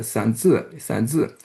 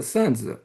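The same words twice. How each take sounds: First: "sanzi" with the weight on the final "zi"; second syllable of "sanzi" made prominent; stress on second syllable. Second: "sanzi" with the weight on "san"; first syllable of "sanzi" made prominent; stress on first syllable. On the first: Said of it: "has the stress on the second syllable". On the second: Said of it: "stress is on the first syllable". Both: Shown as a demonstration.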